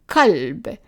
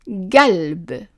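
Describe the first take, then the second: First: The word starts with a plain k sound. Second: The word starts with a hard g sound. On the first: This is a regional form from part of Palestine. "like we said in that small region in Palestine" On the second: This is a dialect form. "If we are changing the qaf to a g sound"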